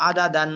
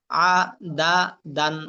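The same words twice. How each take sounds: First: Said in the usual way. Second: আ, দা, দান each on its own; broken syllables. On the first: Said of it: "ভাঙ্গা উচ্চারণ একটা একটা করে পড়লেন". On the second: Shown as a demonstration. Teacher drilling learners in broken pronunciation, syllable by syllable. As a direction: split আ, দা, দান with pauses between. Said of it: "ভাঙ্গা উচ্চারণ করবেন একটা একটা করে".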